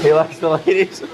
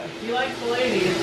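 First: Amused surprise. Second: Higher, softer amused echo; soft aside. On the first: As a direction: ask it back, tickled. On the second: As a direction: murmur it back, amused. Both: Real, not acted. Repeating groomer's remark.

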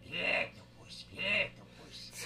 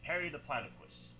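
First: Drawn-out cartoon character voice; cartoon character warm-up. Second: Said in the usual way. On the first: Shown as a demonstration. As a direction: stretch the word out in a put-on character voice. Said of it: "And I would just go". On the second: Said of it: "starting words I would always say".

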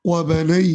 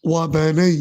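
The two takes are said the same way.

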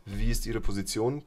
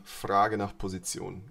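First: Said in the usual way. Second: Frage said slow and clear first; stress on Frage. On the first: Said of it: "Ich funke also nicht". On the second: Shown as a demonstration. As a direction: lead with the keyword Frage, slowly.

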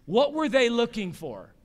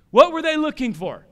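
First: Said in the usual way. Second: Higher, louder repeat of the question; pressing the congregation for the answer. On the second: Shown as a demonstration. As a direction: drive the question home with a raised voice.

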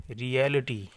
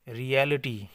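The two takes are said the same way.

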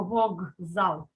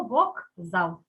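First: Вокзал with a voiced g in place of к; pronounced as heard. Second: Вокзал with a crisp voiceless k before зал; pronounced as written. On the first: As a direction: say вокзал slowly as "vog-zal". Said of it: "Хоч і чуємо вокзал". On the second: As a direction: say вок-зал just as it is spelt. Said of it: "але пишемо вокзал". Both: Shown as a demonstration.

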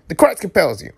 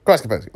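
First: High, falling exorcist cry; mock exorcism. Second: Said in the usual way. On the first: Reader warding off Red Devils on screen, mock exorcism.

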